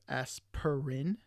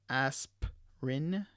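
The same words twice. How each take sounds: First: The middle vowel is fully pronounced in the word. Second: The middle vowel is dropped from the word. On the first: "instead of" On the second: "the sounds in brackets aren't um, are de-stressed or omitted"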